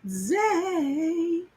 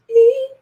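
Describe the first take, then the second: First: A hushed, stretched "Easy." like sinking into calm; soft drawn-out easy. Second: A sudden high, loud "easy." with a rise; high bright easy. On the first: Reader savoring the word, soft and stretched. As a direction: let "Easy." melt out soft and slow. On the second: Reader selling how easy the partner will be, up high. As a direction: pop it up high and louder with a rising lilt. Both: Shown as a demonstration.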